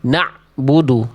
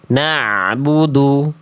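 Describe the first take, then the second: First: The ain sound is abruptly cut off. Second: The ain sound flows on slightly. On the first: The speaker calls it wrong. "cuma masih putus ainnya" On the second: The speaker calls it right. "Harusnya kan ain itu suaranya sedikit mengalir"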